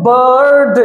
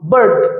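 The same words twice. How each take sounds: First: The word is broken into more than one syllable. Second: The word is said as one single syllable. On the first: The speaker calls it wrong. "এইভাবে কিন্তু উচ্চারণ করবো না আমরা" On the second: The speaker calls it right. "একটা syllable"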